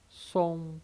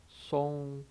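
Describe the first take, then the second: Both takes have the same delivery.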